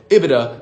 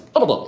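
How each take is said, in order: First: It is said in a normal speaking voice. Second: It is said in a high falsetto voice. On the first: "say ibida in your normal voice" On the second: "moving the ibida into falsetto"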